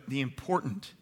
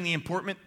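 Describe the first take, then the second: First: Said in the usual way. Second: "important" slipped into "importment"; stumbled word. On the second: Real, not acted. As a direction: fumble the end of "important" as "-ment". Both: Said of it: "words I've messed up today".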